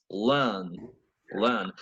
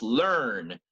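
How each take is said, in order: First: Learn with the r dropped, British. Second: Learn with a full American r. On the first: Teacher contrasting American and British learn, British. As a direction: drop the r, lower British learn. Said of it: "For a British". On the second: Teacher contrasting American and British learn, American. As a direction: keep the r in learn. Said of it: "For an American". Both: Shown as a demonstration.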